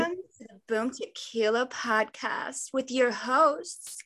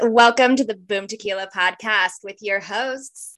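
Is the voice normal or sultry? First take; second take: sultry; normal. First: It is said in a sultry hotline voice. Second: It is said in her normal voice.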